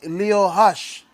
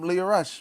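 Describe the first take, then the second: First: The R is said like an H sound. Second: The R is said as an English R. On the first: "if you pronounce it in Portuguese" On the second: "So you just call him Leo Rush"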